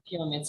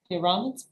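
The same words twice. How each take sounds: First: The stress is on the first syllable. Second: The stress is not on the first syllable. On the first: The speaker calls it right. "The first syllable is stressed" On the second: The speaker calls it wrong. "you say like this"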